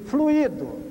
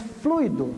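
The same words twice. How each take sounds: First: The stress falls on the i, in three syllables. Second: The stress falls on the u, in two syllables. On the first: The speaker calls it wrong. "Veja como está escrito" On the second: The speaker calls it right. "É fluido, não tem o, o acento"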